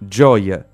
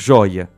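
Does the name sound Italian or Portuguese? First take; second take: Italian; Portuguese. First: It is said with an Italian pronunciation. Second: It is said with a Portuguese pronunciation. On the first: It is the dog's name, meaning joy. The speaker calls it right. "gioia é uma palavra italiana" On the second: The speaker calls it wrong. "Joia é um bem de valor"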